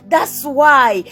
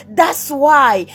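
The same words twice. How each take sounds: The two takes are said the same way.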